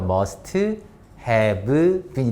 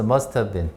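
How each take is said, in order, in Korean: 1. 각 단어를 따로, 천천히 말해요. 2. 단어들을 빠르게 이어서 말해요. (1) "처음에 must have been 이렇게 읽죠. 그렇게 읽지 말고" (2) "붙여버려"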